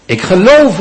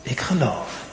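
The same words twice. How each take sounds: First: "Ik geloof" cried out high and loud; crying out. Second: Softly, almost under the breath; a quiet, inward "Ik geloof"; hushed confession. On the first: The desperate father crying out his faith to Jesus, loud and high. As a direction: call "Ik geloof" out with full conviction. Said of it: "roept die vader uit". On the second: The father confessing quietly to Jesus, hushed. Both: Acted.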